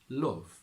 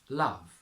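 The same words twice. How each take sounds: First: It has a Yorkshire 'oo'-like vowel. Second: It has a standard British 'uh' vowel. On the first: "to Yorkshire" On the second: "from R P"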